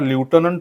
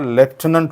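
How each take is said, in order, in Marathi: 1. पहिला अक्षर 'loo' सारखा वाटतो. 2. पहिला अक्षर 'left' सारखा वाटतो. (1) "करेक्ट उच्चार हा ल्युटनंट होत नाही" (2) "करेक्ट उच्चार हा लेफ्टनंट होतो"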